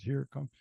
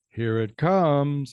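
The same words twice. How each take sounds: First: It is said in a toned-down plain tone. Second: It is said in a sarcastic tone.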